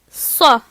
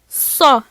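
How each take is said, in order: First: The consonant is heavy, with emphatic backing. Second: The same.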